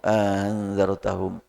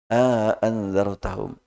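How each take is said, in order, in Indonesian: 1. Hamzah kedua diringankan, tidak diucapkan penuh. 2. Hamzah kedua diucapkan penuh dan jelas. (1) "di sini tashil" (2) "Jadi untuk Hisham"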